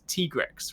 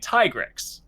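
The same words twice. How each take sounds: First: The first syllable sounds like 'tee'. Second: The first syllable sounds like 'tie'. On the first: The speaker calls it right. "it is T" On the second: The speaker calls it wrong. "as in like Ty or Tiger"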